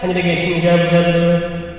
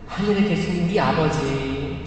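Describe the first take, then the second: First: It is said flatly, as a routine habit. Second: It is said earnestly, with heartfelt pleading.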